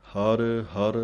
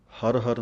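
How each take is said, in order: First: ਹਰ ਹਰ with a small break between; separate words. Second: ਹਰ ਹਰ slurred into one; run together. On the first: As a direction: split ਹਰ ਹਰ apart, a slight jamak. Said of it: "ਥੋੜ੍ਹੀ ਜਿਹੀ ਜਮਕ ਦੇ ਕੇ". (ਹਰ ਹਰ ਵੱਖਰਾ, ਜਮਕ ਦੇ ਕੇ) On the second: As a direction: demo ਹਰ ਹਰ merged, no gap. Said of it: "ਹਰ ਹਰ ਨਹੀਂ ਕਹਿ ਦੇਣਾ". (ਹਰ ਹਰ ਜੋੜ ਕੇ, ਗ਼ਲਤ) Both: Shown as a demonstration.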